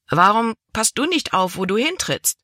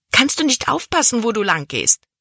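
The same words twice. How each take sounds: First: Angry retort. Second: Hissing. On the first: Cabin boy angrily throws her question back at Libby. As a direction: snap back at her, tit for tat. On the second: Libby, soaked by the boy's bucket, hisses at him. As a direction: spit the question out at the clumsy boy. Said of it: "zischte sie". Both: Acted.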